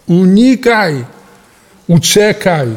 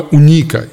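First: Unikaj! raised higher, urgent and forceful; emphatic warning. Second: Said in the usual way. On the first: Acted. Preacher warning the congregation off alcohol, urgent raised cry.

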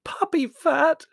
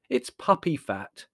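First: Outraged "Puppy fat" in a very high, loud squeak; loud, high-pitched indignant squeal. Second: Slow, airy verdict on PUPPY FAT; unbothered, slightly drawn-out dismissal. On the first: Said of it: "squeaked Margot". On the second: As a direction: pronounce "puppy fat" slowly and airily. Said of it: "said Larry airily". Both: Acted.

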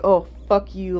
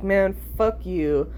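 First: Mock entitled whine on Oh; bratty fuck you. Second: Slow, matter-of-fact brush-off; calm fuck you. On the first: Shown as a demonstration. Showing how she did not tell off her friend, mock bratty. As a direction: play the spoiled brat she isn't. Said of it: "I'm not saying it like". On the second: Retold or imitated. Friend refuses Adderall, she calmly brushes her off. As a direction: let it go coolly, not bratty. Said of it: "it's not like".

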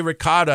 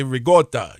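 First: "ricotta" as ri-KAH-da; mainstream "ricotta". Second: "ricotta" as ree-GAWT-ah; Italian-American "ricotta". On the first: Host quotes the other side's way, ri-KAH-da. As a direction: say "ricotta" with a k and open ah. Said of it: "You say ricotta". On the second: Host gives his own way, ree-GAWT-ah. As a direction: say "ricotta" with a hard g. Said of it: "I say ricotta". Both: Shown as a demonstration.

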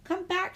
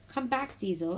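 First: High, loud call after someone; whistled call. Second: Higher plea, falling away on the name; sad call. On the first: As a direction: call out urgently, pitched right up. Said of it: "she whistled". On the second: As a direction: call plaintively, less forcefully. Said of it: "Emily whistled sad-, sadly". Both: A narrator's reading.

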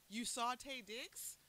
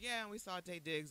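First: Slow, high, rising question; mock incredulous. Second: Casual mention, glossed right over; offhand retelling. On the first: Questioning sister about the star sighting, incredulous. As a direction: stretch it out in stunned disbelief. Retold disbelief at sister's casual mention. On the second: Retold or imitated. Sister mentioning a star sighting in passing, offhand. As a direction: imitate a sister dropping it in passing. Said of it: "I just gloss right over it".

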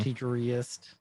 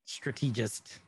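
First: "Strategist" as struh-TEE-juh-ree-ist; garbled pronunciation. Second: "Strategist" as struh-TEE-jist; uncertain pronunciation. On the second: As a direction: say "Strategist" with a long ee and soft j. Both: Shown as a demonstration. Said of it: "I don't know how to say".

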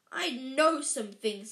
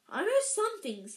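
First: Hagrid's voice. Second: Put-on higher-pitched boy's protest; Harry's voice. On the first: Boy's line mistakenly read in the giant's voice. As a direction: say it slowly, stressing KNOW. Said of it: "doing it in the context of Harry, Hagrid". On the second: Boy defending his schooling to the giant, high-pitched. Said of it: "I was doing it in the context of Harry". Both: A narrator's reading.

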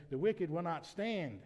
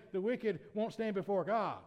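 First: Slow, weighty "stand" to close the phrase; corrected reading, landing hard on "stand"; stress on STAND. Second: The misreading, "stand" not singled out; misread emphasis. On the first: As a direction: draw out "will not stand" and stop firmly on "stand". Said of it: "you emphasize different words". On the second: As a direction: read straight through to "before God". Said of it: "you'll misread that and say". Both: Shown as a demonstration.

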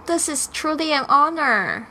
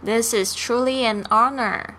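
First: This is truly an honor said at quick natural speed; brisk native-speed line; fast conversational read; fast dialogue. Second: This is truly an honor said slowly and evenly; calm careful model line for students; slow classroom read; slow dialogue. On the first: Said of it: "Let's do a fast one". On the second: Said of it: "Let's do a slow dialogue". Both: Shown as a demonstration.

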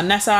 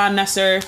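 First: Nessa ending in an open "ah"; usual Nessa ending. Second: Nesser ending in an r sound; American-style Nesser. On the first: Telling the host her name, usual Nessa ending. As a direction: say Nessa with an open final vowel. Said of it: "most people call me Nessa". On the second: Telling the host her nickname, American-style Nesser. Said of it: "went to America that people call me Nesser". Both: Shown as a demonstration.

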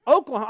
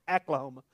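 First: Said in the usual way. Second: "Oklahoma" opening on a flat A; bad Oklahoma accent. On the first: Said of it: "when it's Oklahoma". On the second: Shown as a demonstration. Showing a real bad accent, "Oklahoma" as ACK-la-homa. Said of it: "That's a real bad accent".

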